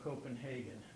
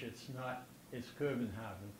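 First: The name is pronounced the English way. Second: The name is pronounced the Danish way. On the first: "but in English, do we say" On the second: "in Danish"

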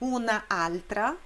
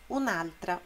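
First: Both vowels are pronounced separately. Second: The first vowel is dropped and the words merge. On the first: The speaker calls it wrong. "Em vez de dizer una altra" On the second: The speaker calls it right. "se diz un'altra"

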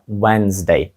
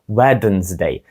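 First: No d sound is pronounced in the middle. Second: A d sound is pronounced in the middle. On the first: The speaker calls it right. "літера D ... взагалі не вимовляється. Вимовляється це Wednesday" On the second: The speaker calls it wrong. "мало б звучати щось типу Wednesday, але звучить це просто жахливо"

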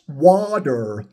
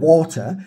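First: The middle t sounds like a soft d. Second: The middle t is a clear t sound. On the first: "it's water. Oh, so it's W-A-R-D-E" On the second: "it's not even water"

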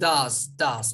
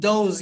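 First: The vowel sounds like an 'a' sound. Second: The vowel sounds like an 'o' sound. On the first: The speaker calls it right. "burada transcription'da da a ses var" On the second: The speaker calls it wrong. "Bunun does gibi telaffuz yapanlarımız var. Bunu öyle yapmıyoruz"

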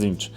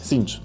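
First: The word begins with a clear t sound. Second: The word begins with an s sound. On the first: The speaker calls it wrong. "nie Zinch" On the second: The speaker calls it right. "Cinch przez sy"

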